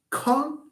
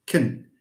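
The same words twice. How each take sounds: First: "con" with full open vowel, high pitch; stressed syllable. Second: "con" reduced to a short, low "cun"; unstressed syllable. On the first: Teacher isolates the noun's first syllable, "con" stressed high. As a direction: say "con" strong and high, as in the noun. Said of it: "you have con is the first syllable". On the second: Teacher isolates the verb's first syllable, "con" weak and low. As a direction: drop "con" low and swallow its vowel. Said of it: "stress shifts". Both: Shown as a demonstration.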